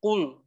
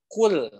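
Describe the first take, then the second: First: "kul" with the tongue closed, lam turned thick; wrong closed kul. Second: "kul" with the tongue kept open, lam light; correct open kul. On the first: Teacher showing the wrong closed lam, mock-mistaken demo. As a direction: show the mistake, "kul" shut and heavy. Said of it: "itu lidahnya jadi tertutup". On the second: Teacher showing the correct open lam, model demo. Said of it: "Harusnya gini". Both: Shown as a demonstration.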